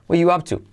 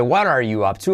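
First: "What you up to" higher, as "wa yu ap tu"; ARE omitted. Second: "What are you up to" flowing, "What are" as "wa-rar"; T as soft R. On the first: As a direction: drop the T and glide "What" into "you". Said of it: "omitiendo are". ("What you up to" sin "are", como "wa yu") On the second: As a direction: link "What are" with a tapped T. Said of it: "con T como resuave". ("What are" unido con R suave) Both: Shown as a demonstration.

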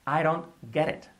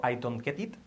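First: I DON'T GET IT as "I-ron gerit"; linked pronunciation. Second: I DON'T GET IT with every t and d hard; "I don't get it" word by word; unlinked pronunciation. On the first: Teacher models native linking, flapped I DON'T GET IT. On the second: Teacher shows what to avoid, hard-t I DON'T GET IT. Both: Shown as a demonstration. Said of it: "Fijaros que no digo".

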